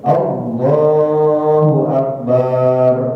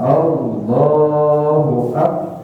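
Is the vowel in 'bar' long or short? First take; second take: long; short. First: The vowel in 'bar' is drawn out long. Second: The vowel in 'bar' is short. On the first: The speaker calls it wrong. "Barnya tidak boleh dibaca panjang. ... nggak boleh" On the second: The speaker calls it right. "Jadi jelas"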